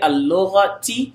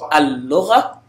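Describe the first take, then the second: First: The word ends in a ti syllable. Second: The word ends in a soft ha sound. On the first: The speaker carries on past this word. "I could say al-lughati" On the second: The speaker stops after this word. "if I'm stopping in ta and I don't want to pronounce it, it sounds like a ha at the end"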